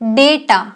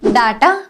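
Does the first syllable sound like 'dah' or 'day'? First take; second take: day; dah. First: The first syllable sounds like 'day'. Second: The first syllable sounds like 'dah'. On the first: The speaker calls it right. "It's डेटा" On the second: The speaker calls it wrong. "No"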